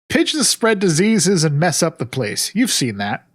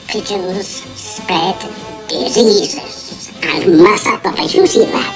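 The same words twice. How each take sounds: First: It is said in a normal voice. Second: It is said in a Munchkin voice.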